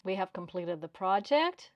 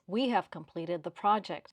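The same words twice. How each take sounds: First: "project" lifted into a question; "We have completed the project?" with an upward lilt at the end; rising ending. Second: Confident, falling at the end; falling statement. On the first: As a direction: let "project" rise as if unsure. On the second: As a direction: land "project." with a firm downward fall. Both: Shown as a demonstration. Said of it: "Which of these two sentences sounds more confident".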